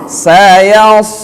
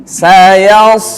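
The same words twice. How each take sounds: Both takes have the same delivery.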